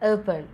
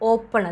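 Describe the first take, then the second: First: The first vowel glides as a diphthong. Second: The first vowel is a pure 'o' sound. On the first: The speaker calls it right. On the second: The speaker calls it wrong. "ഓപ്പൺ അല്ല"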